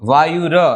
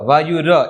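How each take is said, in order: First: The word ends with a full 'ra' syllable. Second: The word ends with a full 'ra' syllable.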